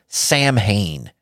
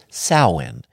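First: The word is said close to its spelling. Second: The word is said in its reduced form. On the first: The speaker calls it wrong. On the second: The speaker calls it right.

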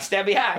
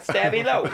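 First: The name ends in a 'high' sound. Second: The name ends in a 'low' sound. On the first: The speaker calls it wrong. "Not Stabby High" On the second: The speaker calls it right.

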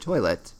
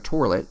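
First: The word has a standard general pronunciation. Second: The word has a regional Kentucky pronunciation. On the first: "as opposed to a toilet" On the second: "in some parts of Kentucky, you have a toilet"

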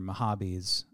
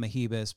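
First: The middle syllable is said like 'hah'. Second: The middle syllable is said like 'hee'. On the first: This is the brand's actual name. The speaker calls it right. "They're Mahabis" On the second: This is a joking personal mispronunciation. The speaker calls it wrong. "I call them Mahibis, but now I'm realizing how annoying that is and stupid"

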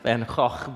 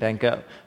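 First: The name is said with a Dutch pronunciation. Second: The name is said with an American pronunciation. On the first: The speaker calls it right. "It's actually pronounced Vincent van Gogh" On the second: The speaker calls it wrong. "we're Americans. We butcher everybody's names, right? So we say"

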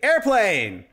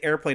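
First: It is said loudly with exclamation-point excitement. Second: It is said flatly, like a normal word.

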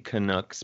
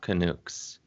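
First: The last syllable rhymes with puck. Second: The last syllable does not rhyme with puck. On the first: The speaker calls it right. "I'm trying to say Canucks" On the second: The speaker calls it wrong. "but I think it comes out Canucks"

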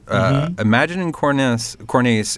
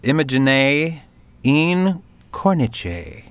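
First: It is said with an Americanized pronunciation. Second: It is said with an Italian pronunciation. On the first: The speaker calls it wrong. "I'm going to read it the dumb American way first" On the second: The speaker calls it right. "And it's"

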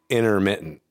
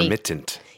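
First: The middle t is a glottal stop. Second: The middle t is a full t. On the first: "that's a glottal stop" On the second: "Instead of intermittent"

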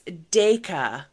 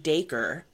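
First: The name ends with an open 'ah' sound. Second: The name ends with an 'er' sound, like acre. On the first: The speaker calls it right. "It's Dayka. D-A-Y-K-A-H" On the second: The speaker calls it wrong. "You don't pronounce his name Dacre"

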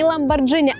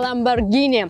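First: The middle consonant is a soft j sound. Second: The middle consonant is a hard g sound. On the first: The speaker calls it wrong. "не Lamborghini" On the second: The speaker calls it right. "а Lamborghini"

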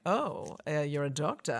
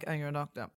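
First: It sounds impressed and admiring. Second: It sounds unimpressed and dismissive.

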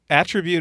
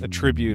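First: The stress is on the first syllable. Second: The stress is on the second syllable. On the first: The word is used as a noun. "Attribute is a noun" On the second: The word is used as a verb. "Attribute is the verb"

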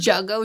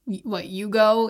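First: The word begins with an English J sound. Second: The word begins with a Y sound. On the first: The speaker calls it wrong. "most Canadians say jugo juice because we don't speak Spanish" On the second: The speaker calls it right. "It's actually pronounced yugo in Spanish"

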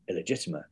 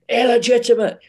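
First: The word is said in a neutral, matter-of-fact tone. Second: The word is said in a judging, disapproving tone. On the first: No judgment is implied. "There's no judgment behind saying illegitimate" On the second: A judgment is implied. "there is an element of judgment behind saying illegitimate"

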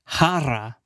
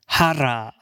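First: It is said with a Spanish pronunciation. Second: It is said with a Spanish pronunciation.

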